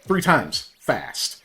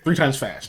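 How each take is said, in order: First: There is a pause before the word fast. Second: It is said smoothly with no pause before fast. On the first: Say it three times as fast. The speaker calls it wrong. "Not like" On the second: Say the phrase quickly three times. The speaker calls it right. "There's no pause"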